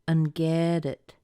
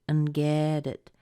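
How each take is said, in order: No difference in how they are said.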